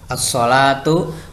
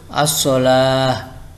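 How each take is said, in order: First: The word ends with a t sound and vowel. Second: The word ends with an h sound. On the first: The word is read in connected speech. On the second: The reader pauses on the word.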